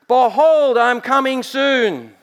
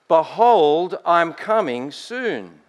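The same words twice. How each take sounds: First: It is cried out very loudly. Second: It is said at a quieter, normal volume.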